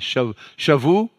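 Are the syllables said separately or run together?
separately. The syllables are said separately, with breaks.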